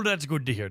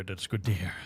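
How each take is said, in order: First: Said in the usual way. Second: Repeated much lower and softer; deep voice. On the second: Shown as a demonstration. Streamer repeats her reply to chat in a low voice. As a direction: drop into a low goofy voice.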